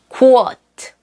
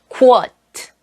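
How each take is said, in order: The two takes are said the same way.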